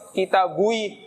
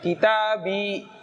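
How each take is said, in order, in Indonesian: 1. Kata ini berakhir dengan bunyi 'ui'. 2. Kata ini berakhir dengan bunyi 'i' biasa. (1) "nggak enak" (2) "itu lebih enak"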